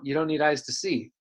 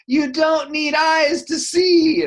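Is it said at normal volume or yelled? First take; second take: normal; yelled. First: It is said at a normal volume. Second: It is yelled loudly.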